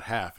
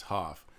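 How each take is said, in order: First: Said in the usual way. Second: "half" with a broad open "ah"; Boston "half". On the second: Shown as a demonstration. Correcting to the Boston vowel, "half" as "hahf". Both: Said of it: "it's not half, it's half".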